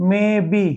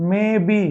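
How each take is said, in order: The two takes are said the same way.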